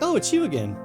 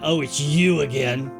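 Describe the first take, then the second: First: It sounds warm and pleasantly surprised. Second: It sounds annoyed and dismissive.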